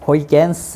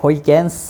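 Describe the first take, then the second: First: The name is said the English way, as Hoigens. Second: The name is said the English way, as Hoigens.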